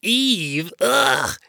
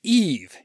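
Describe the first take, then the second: First: Loud appalled EVE, then a gagging ugh; retching disgust. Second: Firm, louder declaration of EVE; assertive naming. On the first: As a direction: say EVE as if it makes you retch. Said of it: "let out a retching sound". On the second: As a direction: announce EVE to show who is in control. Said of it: "wanting God to see he could handle this woman". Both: A narrator's reading.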